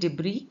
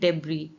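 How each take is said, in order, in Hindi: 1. यह अमेरिकी लहजे में बोला गया है। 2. यह ब्रिटिश लहजे में बोला गया है। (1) "अमेरिकन एक्सेंट में अगर आप इसे प्रोनाउंस करेंगे तो इसे कहेंगे" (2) "ब्रिटिश एक्सेंट में इसे प्रोनाउंस करेंगे तो ये है"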